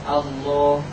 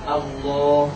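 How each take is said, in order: Both takes have the same delivery.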